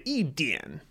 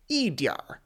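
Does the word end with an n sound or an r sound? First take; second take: n sound; r sound. First: The word ends with a plain n sound. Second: The word ends with an r-coloured sound. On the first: "you can drop the R" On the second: "if you're adding R ... it's just changing the pronunciation of the previous syllable"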